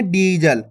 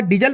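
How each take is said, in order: First: "डीजल" with a long first vowel; drawn-out ee. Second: "डीजल" with a quick short i, like "dijal". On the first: Teacher correcting the short reading, drawn-out ee in "डीजल". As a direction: draw out the ee in "डीजल". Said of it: "खींच के पढ़ेंगे". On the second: Teacher warning against the misreading, short i in "डीजल". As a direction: say "डीजल" with the first vowel cut short. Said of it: "छोटी ई की मात्रा का उच्चारण हो जाएगा". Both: Shown as a demonstration.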